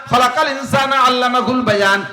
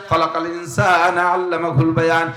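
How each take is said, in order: First: Chanted recitation. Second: Slow recitation. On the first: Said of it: "same verse said again slower". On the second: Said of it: "same verse repeated". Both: Shown as a demonstration.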